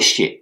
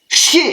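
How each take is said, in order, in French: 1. La syllabe a un ton léger et neutre. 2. La syllabe a un ton fort et plein. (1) "le deuxième est un ton neutre" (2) "le premier chier est un ton fort"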